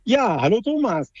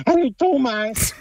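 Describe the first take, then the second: First: Said in the usual way. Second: Higher-pitched cartoon bee greeting; lightly voiced cartoon character; Willi. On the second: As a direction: say hello as the cartoon bee's pal. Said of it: "So ist besser, genau".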